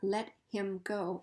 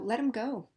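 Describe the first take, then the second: First: The h in him is clearly pronounced. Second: The h is dropped, giving let 'em go. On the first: "not let him go, unless we're mad" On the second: "we'll just get rid of the the first letter and just say um"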